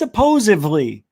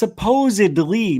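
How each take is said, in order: First: The word is said as 'supposively'. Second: The word is said as 'supposedly'. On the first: The speaker calls it wrong. "not supposedly" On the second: The speaker calls it right. "And the word is supposedly"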